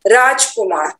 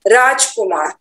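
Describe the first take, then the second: First: The short vowels after j and r are dropped. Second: The short vowels after j and r are dropped.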